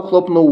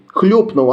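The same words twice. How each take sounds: First: Хлопнув said with a clear open о, хлоп-нув; misread хлопнув. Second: Correcting to Хлюпнув, raised a touch; corrected хлюпнув. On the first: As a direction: read it as хлопнув with о. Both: Shown as a demonstration. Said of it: "зачитав, як хлопнув".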